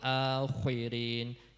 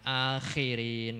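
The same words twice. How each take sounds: First: The consonant is heavy, with rounded lips. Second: The consonant is light, with unrounded lips. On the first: The speaker calls it right. "jadi dimoncongkan" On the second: The speaker calls it wrong. "jangan akhirin"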